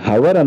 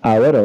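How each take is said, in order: First: The word begins with an h sound. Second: The word begins with a vowel sound. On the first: The speaker calls it wrong. "దీన్ని హవర్ అనవండి" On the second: The speaker calls it right. "హెచ్ రాసి దాన్ని silent గా మనం పలుకుతాం కనుక అవర్ అవుతుంది"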